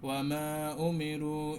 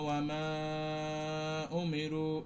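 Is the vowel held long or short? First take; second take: short; long. First: The vowel is held only briefly. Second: The vowel is drawn out long. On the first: The speaker calls it right. "এক আলিফ টান দিয়ে পড়ে যেতে হবে" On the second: The speaker calls it wrong. "এখানে লং টান দিলেন দুই আলিফ পরিমাণ"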